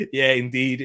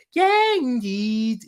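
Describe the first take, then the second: First: Said in the usual way. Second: "indeed" drawn out in a Scouse accent, pitched high; hammed-up Liverpool Scouse "indeed". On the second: Shown as a demonstration. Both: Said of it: "in the Scouse accent".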